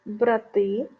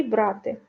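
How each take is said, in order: First: Брати with stress on the last syllable, брати́, meaning brothers; stress on the second syllable. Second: Брати with stress on the first syllable, бра́ти, the verb. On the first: (наголос на останньому складі: брати́) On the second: (наголос на першому складі: бра́ти) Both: Shown as a demonstration. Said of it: "Подивіться".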